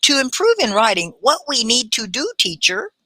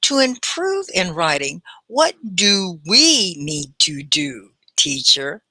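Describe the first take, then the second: First: Higher, run-on reading of "what we need to do"; faulty sentence read-back. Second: Slow, deliberate "what do we need to do", weight on "we"; corrected sentence read-back. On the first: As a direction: read "what we need to do" quickly, pitched high, as written. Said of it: "it would sound like this". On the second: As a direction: draw out "what do we need to do" at usual pitch. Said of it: "How about this". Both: Shown as a demonstration.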